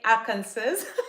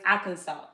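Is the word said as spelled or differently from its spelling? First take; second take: as spelled; differently. First: It is pronounced the way it is spelled. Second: It is pronounced differently from its spelling. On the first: The speaker calls it wrong. "the way I pronounced it before was like Arkansas. Because that's how you spell it" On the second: The speaker calls it right. "but it's Arkansas"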